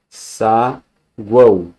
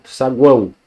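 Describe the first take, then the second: First: "Saguão" split slowly as sa-guão; "Saguão" in two slow, separated syllables. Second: Said in the usual way. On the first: Shown as a demonstration. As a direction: hold "sa", pause, then "guão". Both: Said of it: "como é que a gente separa".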